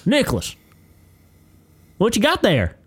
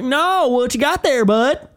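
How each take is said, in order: First: Put-on high, loud coach calling out a kid; confrontational coach. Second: High, loud, drawn-out challenge; coach laying into kid. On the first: Coach spots a student playing with toys, confrontational. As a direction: pounce on the student with a raised pitch. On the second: Retold or imitated. Coach stops a student putting toys away, loud confrontation. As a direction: press the kid hard, voice pitched way up. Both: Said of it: "starts laying into this kid".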